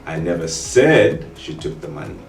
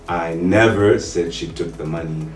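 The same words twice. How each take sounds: First: The stress is on the word said. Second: The stress is on the word never.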